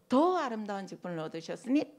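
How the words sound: The word 더 is strongly accented.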